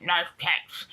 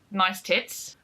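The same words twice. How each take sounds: First: Put-on muffled odd accent, vowels twisted toward Australian; strange Australian-like accent. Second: Said in the usual way. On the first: Mimicking the older guy's remark, strange Australian-like accent. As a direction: imitate a strange voice, almost Australian. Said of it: "such a strange voice and accent". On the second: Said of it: "like, he'd say".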